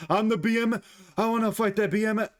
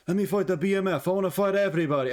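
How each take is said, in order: First: Botched Dan Hooker impression in a higher, Russian-sounding accent; mock a fighter in a stray Russian accent; high-pitched Russian-sounding mock voice; accidental Russian accent. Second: Badly faked Australian accent, pitched up; mock a fighter with a hammed-up bad Australian accent; higher, botched Aussie accent; terrible Australian accent. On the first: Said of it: "Why did I just do a Russian act?". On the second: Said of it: "That was a terrible Australian accent".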